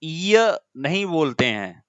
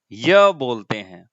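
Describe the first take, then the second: First: य said slowly as the wrong way. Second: य said slowly and firmly as the right way. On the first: Teacher contrasting the wrong य sound, slowly. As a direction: drag out य to mark it wrong. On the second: Teacher giving students the correct य sound, firmly. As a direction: land the correct य, slow and firm. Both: Shown as a demonstration.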